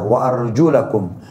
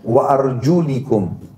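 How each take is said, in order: First: The vowel after the L is 'a'. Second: The vowel after the L is 'i'. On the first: "lamnya pakai fathah" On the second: "pakai kasrah di lamnya"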